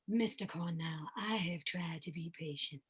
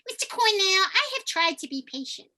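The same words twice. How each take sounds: First: The voice is low and resonates in the chest. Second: The voice resonates in the nose and sounds nasal. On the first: This is one character. "I can choose to have a character voice down here" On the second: This is yet another character. "my nasal resonant place"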